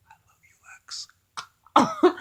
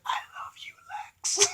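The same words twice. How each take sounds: First: Very slow, drawn-out whisper. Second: Breathless lovestruck whisper. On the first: Imagined old woman swooning at Lex, slow hammed-up whisper. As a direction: stretch the whisper out like a swooning sigh. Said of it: "It's like". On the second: Old woman whispering love to Lex, mock tender whisper. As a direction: breathe it like a dying sweetheart. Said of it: "she's like". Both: Retold or imitated.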